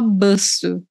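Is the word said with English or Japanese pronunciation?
English. It is said like English, one short syllable. The speaker calls it wrong. "em japonês você não pode falar baço"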